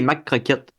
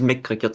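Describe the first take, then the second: First: The first word has an open 'a' vowel. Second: The first word has an 'e' vowel. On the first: "J'ai dit des Mac croquettes" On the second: "J'ai pas dit mec croquettes"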